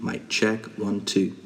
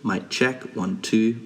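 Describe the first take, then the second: No difference in how they are said.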